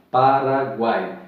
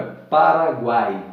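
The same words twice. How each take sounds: First: Paraguai said slowly, every vowel of guai voiced. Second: Said in the usual way. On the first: Shown as a demonstration. Teacher drawing out Paraguai for the class. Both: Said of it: "Veja que aí nessa".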